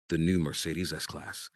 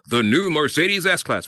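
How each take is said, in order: First: It is said in a relaxed, understated way. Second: It is said in a showy, bragging way.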